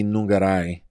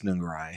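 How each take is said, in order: First: The name is said with Spanish-style sounds. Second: The name is said with English-style sounds.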